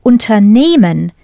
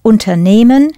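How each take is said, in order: First: Unternehmen with stress on NEH, not the first syllable; stress on the middle. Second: Unternehmen stressed on NEH, first syllable light; Unternehmen, weight on the nehm syllable; stress on the middle. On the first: Teacher modelling stress for the learners. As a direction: say unternehmen, leaning on the nehm part. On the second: Teacher repeating the word to show its stress. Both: Shown as a demonstration. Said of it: "Listen to where I put the stress".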